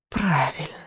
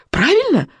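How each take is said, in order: First: Soft witch's hiss. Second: High, urgent cry; called out. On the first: Witch grudgingly confirms the boy's guess, hissing. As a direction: let it out as a soft, dying hiss. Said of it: "прошипела ведьма". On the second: Boy demands confirmation from the witch, crying out. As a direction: call it into darkness with pitch leaping up. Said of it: "выкрикнул Икинг в темноту". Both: A narrator's reading.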